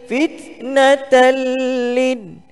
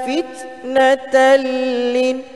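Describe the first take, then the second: The two takes are said the same way.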